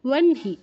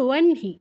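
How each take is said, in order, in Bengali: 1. h ধ্বনিটি n-এর পরে আসে। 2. h ধ্বনিটি n-এর পরে আসে।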